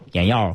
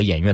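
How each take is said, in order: First: The second syllable is pronounced yao. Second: The second syllable is pronounced yue. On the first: The speaker calls it wrong. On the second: The speaker calls it right.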